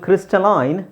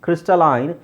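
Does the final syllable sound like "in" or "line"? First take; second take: line; line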